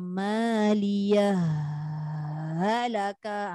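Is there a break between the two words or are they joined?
joined. The two words run together without a break. The speaker calls it wrong. "tu tak boleh. Macam bersambung"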